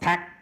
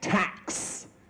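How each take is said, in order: First: The final consonant is dropped or unreleased. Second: The final consonant is clearly released. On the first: The speaker calls it wrong. "Not tax" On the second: The speaker calls it right. "It's tax"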